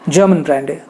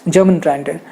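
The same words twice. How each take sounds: The two takes are said the same way.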